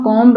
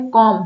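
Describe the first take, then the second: First: कॉम्ब with the b sounded at the end; wrong pronunciation. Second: कॉम said with silent b, no final b sound; correct pronunciation. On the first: Teacher showing students the wrong way, कॉम्ब with b. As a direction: voice the final b in कॉम्ब. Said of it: "कॉम्ब नहीं बोला जा रहा है". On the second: Teacher showing students how कॉम sounds. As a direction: say कॉम ending cleanly on m. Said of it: "इसको कॉम बोला जा रहा है". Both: Shown as a demonstration.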